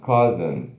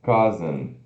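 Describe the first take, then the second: Both takes have the same delivery.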